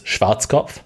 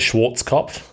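First: The name is pronounced in a German way. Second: The name is pronounced in an English way. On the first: This is the original pronunciation. The speaker calls it right. "It's Schwarzkopf" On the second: This is how most people say it. The speaker calls it wrong. "People say Schwarzkopf"

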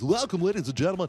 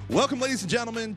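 First: It is said in a put-on announcer voice. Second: It is said in his normal voice.

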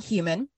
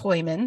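First: The name is said with an American pronunciation. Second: The name is said with a German pronunciation. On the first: "in America, you would pronounce her last name Human" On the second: "The German pronunciation is Heuman"

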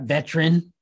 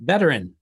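First: The word is said with two syllables. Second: The word is said with three syllables. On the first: The speaker calls it wrong. "not veteran" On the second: The speaker calls it right. "It's a three syllable M-F and beep and beep, beep, beepity beep word"

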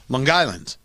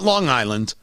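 First: A hard G links over to start 'island'. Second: No G is carried over onto 'island'. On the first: "With the G starting island"

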